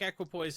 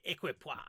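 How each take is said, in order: First: It is said with ordinary English pronunciation. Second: It is said with a put-on French pronunciation.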